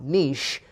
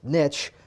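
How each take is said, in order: First: The word does not rhyme with 'rich'. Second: The word rhymes with 'rich'. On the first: The speaker calls it wrong. "not niche" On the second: The speaker calls it right. "it's niche"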